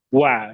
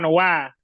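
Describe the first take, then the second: First: The wa is said with rounded, pushed-out lips. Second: The wa is said with flat, unrounded lips. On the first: The speaker calls it right. "yang betul wah. Dari monyong" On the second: The speaker calls it wrong. "Kalau cuma wah, wah, wah, nggak boleh"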